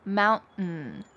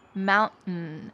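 First: The middle T is clearly pronounced. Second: The middle T is dropped and swallowed.

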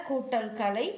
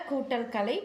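No difference in how they are said.

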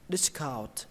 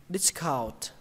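First: The stress is on the first syllable. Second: The same.

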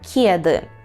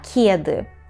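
First: The first k sound is soft, palatalized. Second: The same.

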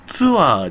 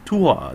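First: The word begins with a 'ts' sound. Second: The word begins with a plain 't' sound. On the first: The speaker calls it wrong. "ツアーじゃなくて" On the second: The speaker calls it right. "ツアーですね"

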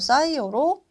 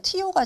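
First: It is pronounced the newer English-based way. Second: It is pronounced the older German-derived way. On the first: This is the current official term. "영어식으로 발음을 바꾸고 있어요" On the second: This is the older official term. "우리 원래 이거 뭐 티오시안 이렇게 얘기했거든요"

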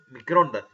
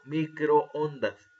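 First: The two o vowels merge into one syllable. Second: The two o vowels are in separate syllables. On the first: The speaker calls it wrong. "no decimos microondas" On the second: The speaker calls it right. "sino microondas"

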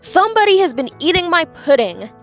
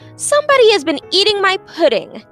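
First: It is said in a big, deep voice. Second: It is said in a medium, middle-pitched voice. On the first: "in his great big voice" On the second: "in her middle-sized voice"

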